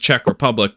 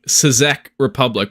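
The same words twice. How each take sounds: First: Czech is said like the word check. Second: Czech is read letter by letter, as spelled. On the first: This is the corrected pronunciation. The speaker calls it right. "I know it's ... because I've been corrected" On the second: This is how the word looks in writing. The speaker calls it wrong. "it looks like"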